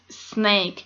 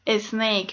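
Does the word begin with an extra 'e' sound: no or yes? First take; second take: no; yes. First: The word starts directly with the s sound. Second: An extra 'e' vowel comes before the s. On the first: The speaker calls it right. "and it's snake" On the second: The speaker calls it wrong. "Or we say snake"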